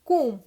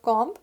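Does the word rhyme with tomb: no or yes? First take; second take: yes; no. First: The vowel rhymes with tomb. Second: The vowel does not rhyme with tomb. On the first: The speaker calls it right. "This is comb. Like T O M B, tomb" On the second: The speaker calls it wrong. "It's not comb"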